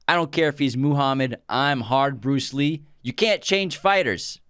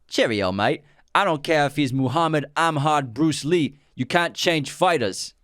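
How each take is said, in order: First: It is said in his normal accent. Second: It is said in a British accent.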